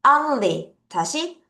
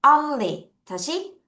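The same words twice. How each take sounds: The two takes are said the same way.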